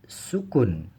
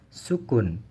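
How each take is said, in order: Both takes have the same delivery.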